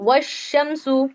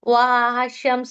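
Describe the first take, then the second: First: The 'wa' runs straight into the 'sh' sound. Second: The 'wa' is drawn out, apart from 'shams'. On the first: The speaker calls it right. "इसको डायरेक्ट व को आप काय में मिला देंगे, शीन में" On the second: The speaker calls it wrong. "आप इसे ऐसा नहीं पढ़ेंगे"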